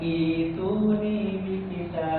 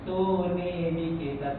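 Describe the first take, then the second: First: The word begins with an i vowel sound. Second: The word begins directly with a t sound. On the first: Reading starts fresh at this word after a stop. "kalau dimulai dari sini ... dibaca kasroh" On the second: The word is joined to the previous word. "kalau di wasal"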